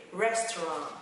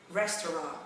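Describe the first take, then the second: No difference in how they are said.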